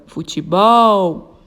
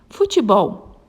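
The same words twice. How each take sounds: First: Futebol with BOL held long and loud; stress on BOL. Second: Said in the usual way. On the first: Shown as a demonstration. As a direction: call out Futebol, stretching the final bol. (futebol com o bol forte e alongado) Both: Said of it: "a sílaba tônica é o bol".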